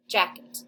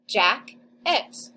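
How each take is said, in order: First: Said in the usual way. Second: Jack, pause, et, said slowly with a rise; split into syllables. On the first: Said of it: "Whole word". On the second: Shown as a demonstration. Teacher segmenting the word for second graders, syllable by syllable. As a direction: sound out jack-et in two beats. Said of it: "So it should say".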